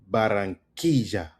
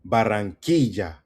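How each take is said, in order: No difference in how they are said.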